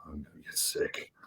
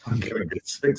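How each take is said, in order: First: Whispered "I'm gonna get sick", barely any voice; nauseous whisper. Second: Said in the usual way. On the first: Retold or imitated. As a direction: breathe it out like you're about to throw up. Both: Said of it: "And I'm like".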